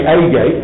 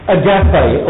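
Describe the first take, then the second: First: Agape said as "ay-gay-pay", first syllable stretched to ay; American pronunciation. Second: Said in the usual way. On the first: Retold or imitated. Pastor mimics Americans saying agape, ay-gay-pay. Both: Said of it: "or as the Americans say".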